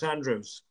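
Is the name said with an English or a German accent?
English. The name is said with an English accent. This is how the name's owner says it. The speaker calls it right. "no, it's Andrews"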